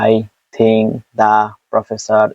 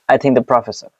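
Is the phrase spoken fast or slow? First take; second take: slow; fast. First: The phrase is spoken very slowly, word by word. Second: The phrase is spoken very quickly, words running together. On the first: "এখন example টু slow" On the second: "Example too fast"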